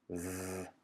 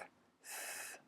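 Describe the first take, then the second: First: The sound is voiced, with throat vibration. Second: The sound is voiceless, with no throat vibration. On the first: "you have vibration" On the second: "no vibration at all"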